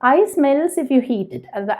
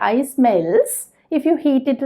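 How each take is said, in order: First: It flows on with no pause after melts. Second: There is a clear pause after melts. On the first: The speaker calls it right. "നമ്മളിത് പറയുമ്പോഴും അങ്ങനെയല്ലേ" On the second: The speaker calls it wrong. "നമ്മളവിടെ pose ചെയ്ത് പറയില്ലല്ലോ"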